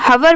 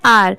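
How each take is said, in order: First: The h sound at the start is pronounced. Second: The h sound at the start is silent. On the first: The speaker calls it wrong. "आप इसे हवर मत pronounce करिएगा" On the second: The speaker calls it right. "इसकी correct pronunciation आर है"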